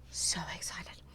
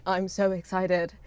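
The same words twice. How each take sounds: First: Drops to an unvoiced whisper on the repeat; whispered echo. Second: Said in the usual way. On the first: Streamer echoing her own excitement, now whispered. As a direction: hush the repeat right down to breath.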